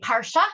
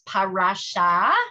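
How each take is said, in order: First: Yiddish Ashkenazi form, said in two syllables. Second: Hebrew form, said in three syllables.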